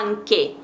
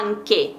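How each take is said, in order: First: The middle consonant is a hard k sound. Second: The same.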